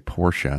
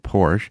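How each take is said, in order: First: The name is said with two syllables. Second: The name is said with one syllable. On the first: This is how car enthusiasts say it. "they're Porsche guys, so they would say Porsche" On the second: This is how most other people say it. "instead of Porsche"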